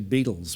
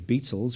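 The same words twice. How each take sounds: First: The middle consonant sounds like a soft D. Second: The middle consonant sounds like a crisp T. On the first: This is how Americans say it. "like it's like got a D" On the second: This is how the British say it. "we say Beatles with a T"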